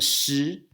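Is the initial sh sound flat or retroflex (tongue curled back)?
flat. The initial sound is flat, not retroflex. This is how it is said in Taiwan. "the shi in Taiwan"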